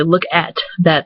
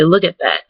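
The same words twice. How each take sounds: First: "Look at that" with a full AT; separate words. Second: "Look at that" as LOOK-it that; Michigander pronunciation. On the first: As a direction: give "at" its open a in Look at that. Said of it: "they don't say". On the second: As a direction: shrink "at" to it in Look at that. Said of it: "They say". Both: Shown as a demonstration.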